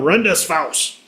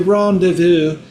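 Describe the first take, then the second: First: The word is said with a German accent. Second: The word is said with a French accent. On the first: It sounds less beautiful. The speaker calls it wrong. "if it would have been made in Germany" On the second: It sounds more beautiful. The speaker calls it right. "Doesn't quite sound as beautiful as"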